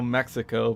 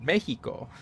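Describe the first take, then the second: First: The middle consonant is a ks sound. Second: The middle consonant is a throaty h sound. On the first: This is how English speakers say the name. "in English we call Mexico Mexico" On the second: This is how the people of the country say the name. "in Spanish it's called Mexico. And so it's like the X makes a J sound"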